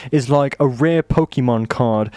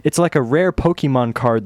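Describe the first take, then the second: First: Slipping into a British accent; accidental British accent. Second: Said in the usual way. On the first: Real, not acted. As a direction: say it with British vowels. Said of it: "speaking a British accent".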